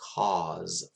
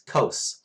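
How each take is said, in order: First: The vowel is long, as in 'cause'. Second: The vowel is short, as in 'cos'. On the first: This is the listeners' English accent. "you say that one as cause in your in, in English accent" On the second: This is the speaker's own accent. "It's cos for me"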